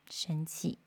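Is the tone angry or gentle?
gentle. It is said in a soft, gentle tone. The speaker calls it right. "你换一个柔和的方式去说"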